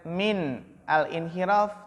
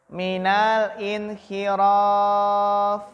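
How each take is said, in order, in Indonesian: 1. Min dan al diucapkan terpisah. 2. Min dan al diucapkan menyambung menjadi satu kata. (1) "Maka kita bacanya bukan min al-inhiraf" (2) "Tapi apa? Minal"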